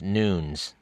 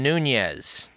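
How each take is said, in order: First: The name is pronounced the Portuguese way. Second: The name is pronounced the Spanish way. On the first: The speaker calls it right. "of Portuguese ancestry, and the correct pronunciation of his name is Nunes" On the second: The speaker calls it wrong. "which is how you would pronounce his name if he were of Spanish ancestry"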